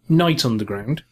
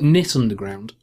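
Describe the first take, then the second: First: The first word sounds like 'night'. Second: The first word sounds like 'knit'. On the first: "You call it Night Underground" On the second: "I call it Knit Underground"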